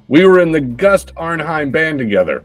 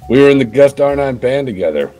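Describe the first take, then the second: First: It is read in an ordinary, plain voice. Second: It is read in a hard-boiled detective voice.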